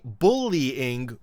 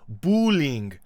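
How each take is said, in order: First: The word is said with three syllables. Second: The word is said with two syllables. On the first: The speaker calls it right. "They don't say bullying with three" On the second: The speaker calls it wrong. "They say it with two"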